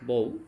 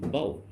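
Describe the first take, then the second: First: The vowel glides from 'o' to 'oo'. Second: The vowel glides from open 'a' to 'oo'. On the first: The speaker calls it wrong. "আমরা ভুল উচ্চারণ করতাম বউ" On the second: The speaker calls it right. "এর সঠিক উচ্চারণ হলো B A ইউ, আও।"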